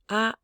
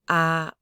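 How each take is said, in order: First: The vowel is held on a high level pitch. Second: The vowel is held flat on the lowest pitch. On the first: "this is a high bell tone" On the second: "This is a low flat tone"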